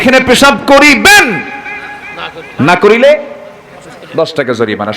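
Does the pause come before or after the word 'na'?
before. The pause comes right before the word 'na'.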